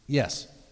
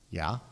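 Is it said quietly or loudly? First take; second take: loudly; quietly. First: It is said much louder. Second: It is said at a normal, quiet volume.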